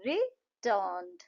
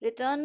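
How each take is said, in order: First: रिटर्न्ड slowly, split रि, टर्न्ड; syllable by syllable. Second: Said in the usual way. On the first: Shown as a demonstration. Teacher shows two claps in रिटर्न्ड, syllable by syllable. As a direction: clear gap inside रिटर्न्ड between रि and टर्न्ड. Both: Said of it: "रिटर्न में दो है".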